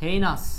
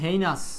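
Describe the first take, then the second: First: The first syllable sounds like 'hay'. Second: The first syllable sounds like 'hay'.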